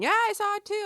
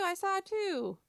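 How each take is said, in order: First: Put-on high, louder eager child chiming in; a kid jumping in to agree; mock eager kid. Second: Put-on high child voice repeating, level dropping back; a second kid copying the first; mock kid echoing. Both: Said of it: "everybody else going".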